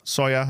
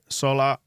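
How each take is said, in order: First: The double L is said as a Y sound. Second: The double L is said as an L sound.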